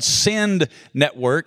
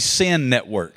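First: The final D of send is clearly pronounced. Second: The final D of send is dropped. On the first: It names the church planting network. "I enunciate the D" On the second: It sounds like a network of sin. "I didn't say SEND Network"

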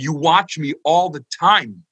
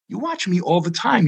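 First: It sounds annoyed and resentful. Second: It sounds grateful and tender.

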